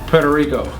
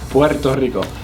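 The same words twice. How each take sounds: First: The R is said as a plain English R. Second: The R is said as a rolled trill. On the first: This is how people usually say it. The speaker calls it wrong. "usually you can hear people say" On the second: This is how it really is said. The speaker calls it right. "Try saying that with the R"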